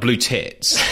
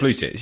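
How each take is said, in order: First: The stress falls on the word tits. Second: The stress falls on the word blue. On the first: The speaker calls it wrong. "not blue tits. You overemphasize the second syllable there" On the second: The speaker calls it right.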